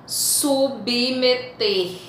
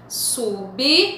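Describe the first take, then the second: First: Said in the usual way. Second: "submeter" broken into "sub", "me", "ter"; split into syllables. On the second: Shown as a demonstration. Teacher showing separable consonants, "submeter" syllable by syllable. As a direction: pause after each syllable of "submeter". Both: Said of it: "Também estão em sílabas diferentes".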